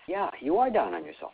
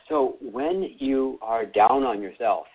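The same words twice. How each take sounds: First: "are" lifted higher and pressed; stress on ARE. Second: Said in the usual way. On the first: Real, not acted. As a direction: lean hard on "are" to confirm it.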